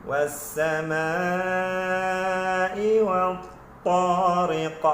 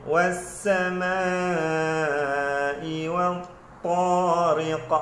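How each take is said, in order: No difference in how they are said.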